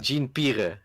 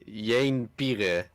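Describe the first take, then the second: First: The name is said with an American accent. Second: The name is said with a Dutch accent. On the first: "like a true American trying to say that" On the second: "or Dutchman"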